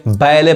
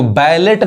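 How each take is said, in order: First: बैले ending on an open "lay"; silent T. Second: बैलेट with the final t sounded; wrong pronunciation. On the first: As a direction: say बैले with no t at the end. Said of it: "बैले पढ़ेंगे". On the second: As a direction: say बैलेट ending on a hard T. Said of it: "इसको बैलेट नहीं कहेंगे". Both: Shown as a demonstration.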